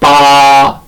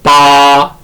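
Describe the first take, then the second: Both takes have the same delivery.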